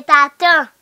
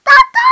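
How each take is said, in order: First: Said in the usual way. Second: Very high, loud squeal on "Tata"; squealed baby call. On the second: Pretend. Child as ti bebe calling tata, high squeal. Baby voice set against usual voice.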